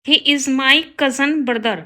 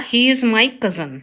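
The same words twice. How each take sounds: First: Slow, careful read of the wrong sentence; slow teacher dictation. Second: Slow, careful read of the corrected sentence; slow teacher dictation. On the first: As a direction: spell it out word by word for the class. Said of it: "गलत है". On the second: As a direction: lay out each word clearly for the class. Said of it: "right होगा". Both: Shown as a demonstration.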